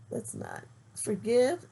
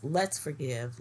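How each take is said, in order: First: "let's not forgive" said slowly and loudly, rising on "forgive"; slip of the tongue. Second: "let's forgive" firm and loud, stress on "let's"; self-correction. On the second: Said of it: "Let's, yes". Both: Real, not acted.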